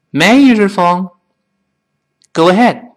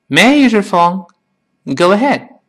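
Both takes have the same delivery.

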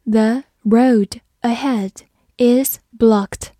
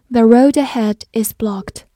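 First: Slow, careful sentence, ending whispered; slow read. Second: Said in the usual way. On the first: Shown as a demonstration. Teacher reading slowly for students to repeat. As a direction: read it slowly, let blocked fall to a whisper. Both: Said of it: "好，慢慢来读".

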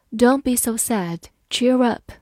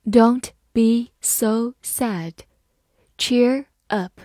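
First: Said in the usual way. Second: Slow, careful "Don't be so sad. Cheer up."; teacher reading slowly. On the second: Shown as a demonstration. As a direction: read it slowly for the class. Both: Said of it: "好，慢慢来读".

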